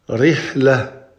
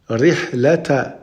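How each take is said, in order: First: The ending stops softly with no t sound. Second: The ending is said with a t and vowel. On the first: The reader stops on this word. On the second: The reader continues on to the next word.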